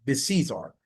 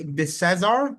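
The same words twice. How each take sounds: First: "Becesar" with a long ee, like "beh-SEE-zar"; long "SEE" middle. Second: "Becesar" with a short e, like "beh-SEZ-ar"; stressed "SEZ" middle. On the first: Host unsure of the surname, trying "Becesar" as beh-SEE-zar. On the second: Host unsure of the surname, trying "Becesar" as beh-SEZ-ar. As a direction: say "Becesar" with middle syllable rhyming with "says". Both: Shown as a demonstration. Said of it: "Is it she, Becesar or Becesar?".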